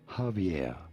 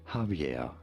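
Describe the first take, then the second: First: The J and V sound as in English. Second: The same.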